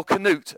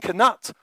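First: "Canute" with a long oo, like "newt"; variant pronunciation. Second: "Canute" with a short u, like "nut"; variant pronunciation. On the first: Preacher offers the other version of the king's name, "Canute" ending like "newt". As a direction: say "Canute" to rhyme with "flute". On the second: Preacher offers one version of the king's name, "Canute" ending like "nut". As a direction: say "Canute" to rhyme with "cut". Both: Shown as a demonstration. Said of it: "there's different pronunciations".

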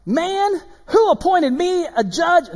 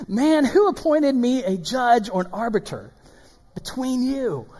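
First: High, loud, drawn-out mock indignation; playful hammed-up scripture reading; exaggerated inflection. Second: Slightly raised, measured indignant question; restrained dramatic scripture reading; toned-down inflected reading. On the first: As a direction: overplay the indignant question for fun. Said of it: "I'm just kidding. I'm inflecting". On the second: Acted. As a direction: read it with milder mock indignation. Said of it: "I just have fun reading that".

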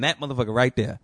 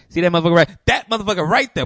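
First: Said in the usual way. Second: Higher, louder call-out of that motherfucker; pointing him out loudly. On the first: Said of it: "just pointing, saying". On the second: Retold or imitated. Pointing out the guy to Jenny, loud. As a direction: jab the words out loud and pointed.

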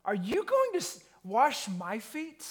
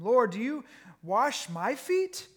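First: High, incredulous indignant question; outraged that the master would stoop. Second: 1 surprised question. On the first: Retold or imitated. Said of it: "Peter says to Jesus in an indignant way". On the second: Acted. Earlier reading of same line.

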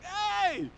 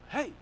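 First: High, loud drawn-out hail; dad's hearty greeting. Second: Short, toned-down hello; concerned greeting. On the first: Dad answering the car phone, big cheery greeting. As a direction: sing out a big hello. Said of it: "He's like". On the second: Dad answering a crying caller, toned-down concern. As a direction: gently check in. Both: Retold or imitated.

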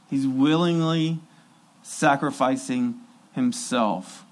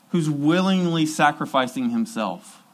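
First: "sacrificing himself" slowed and softened, weight on "willingly"; slow, emphatic repeat. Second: Said in the usual way. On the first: Shown as a demonstration. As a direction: let each word land slowly.

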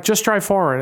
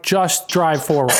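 First: Said in the usual way. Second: Slow, emphatic order, word by word; mock an impatient nurse losing patience; irritated. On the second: Nurse telling a stalling driver to move on, irritated. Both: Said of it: "she just pissed at me".

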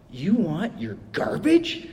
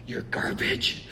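First: Slow, drawn-out disbelief; stunned worker asking slowly; incredulous question. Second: Hushed, breathless repeat; stunned worker echoing under his breath; whispered disbelief. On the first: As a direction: ask it like he can't believe it. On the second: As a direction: whisper it in quiet shock. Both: Retold or imitated. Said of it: "the way he said it just kinda cracked me up".

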